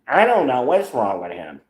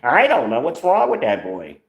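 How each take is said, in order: First: It is said in his normal voice. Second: It is said in an imitated aunt's voice.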